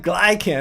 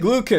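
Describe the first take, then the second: First: The first syllable sounds like 'glide'. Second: The first syllable sounds like 'glue'. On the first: The speaker calls it wrong. "not glycan" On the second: The speaker calls it right. "Beta glucan, not glycan"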